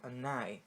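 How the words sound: The two words are linked as one.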